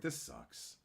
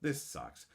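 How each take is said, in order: First: This sucks much lower and softer; deep grumble. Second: Said in the usual way. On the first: Retold or imitated. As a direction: growl it low and flat.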